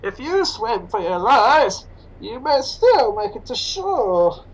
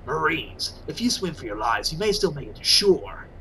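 First: Slow, masked villain voice; slow villainous masked drawl; Bane impression. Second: Low, lightly growled soldier voice; a hint of a gruff Snake; low gravel-free soldier's order, lightly voiced; Snake impression. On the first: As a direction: menace it out slowly like Bane. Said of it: "Perhaps if I said it as Bane". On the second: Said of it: "Maybe if I did it as Snake".

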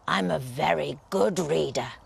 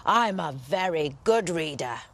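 First: Lower, self-important wolf voice; wolf boast. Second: Imperious lion. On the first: Wolf brags to giant, lower and proud. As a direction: puff yourself up. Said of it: "growled the wolf importantly". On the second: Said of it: "roared the lion imperiously". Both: Acted.

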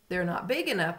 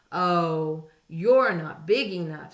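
First: Said in the usual way. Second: Loud, scornful brush-off; grouchy dismissive. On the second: A narrator's reading. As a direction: wave them off loudly. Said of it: "said the grouchy ladybug".

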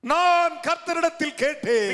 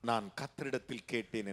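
First: High, loud and slow; drawn-out pulpit shout; full-force proclamation. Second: Low, soft repeat of the verse; hushed, lowered preaching voice; quiet restatement. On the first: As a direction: cry the verse out to the crowd. Preacher proclaims the verse, then repeats quietly. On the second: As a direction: drop right down and say it simply. Same verse repeated after the shout. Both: Real, not acted.

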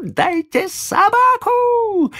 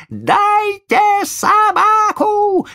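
First: High, slow squealing demand; shrieking child. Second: Louder, high drawn-out squeal; shrieking child. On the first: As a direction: squeal it like a spoiled boy. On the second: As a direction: scream it even harder, slowly. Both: Acted. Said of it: "Взвизгивал мальчик".

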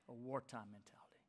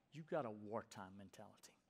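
First: Soft whisper, almost breathless; whispered repeat. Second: Said in the usual way. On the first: Acted. Preacher whispering the phrase back to the congregation. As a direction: let the phrase sink in with a whisper.

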